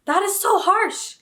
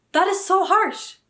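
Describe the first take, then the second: First: Slow, high and loud, stunned by the insult; outraged disbelief. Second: High, loud and slow again, landing on harsh; indignant repeat. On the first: Defending her favourite book, slow wounded outcry. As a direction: stretch it out, wounded and indignant. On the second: Repeating her outrage to viewers, loud and high. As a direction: say it again, still stunned. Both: Real, not acted.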